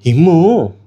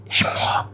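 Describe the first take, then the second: First: A louder call of "ఇమ్ము". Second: Breathy whispered "ఇమ్ము", no voice. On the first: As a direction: call "ఇమ్ము" across the room. గుసగుసలు మాట్లాడుతున్నాడు. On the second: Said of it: "గుసగుసలు మాట్లాడుతున్నాడు". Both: Retold or imitated.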